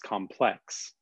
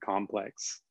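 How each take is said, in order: First: The stress is on the second syllable. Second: The stress is on the first syllable. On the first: It describes something as difficult or intricate. "where you put the emphasis on the second syllable" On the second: It names something made of combined parts. "listen to the way you say apartment complex"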